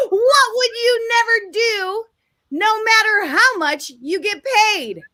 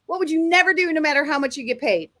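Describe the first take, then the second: First: High, drawn-out game-show delivery; big question announcement. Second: Said in the usual way. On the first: Real, not acted. Host posing the question to the audience, grandly announced. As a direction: pitch it up and stretch it out for the audience.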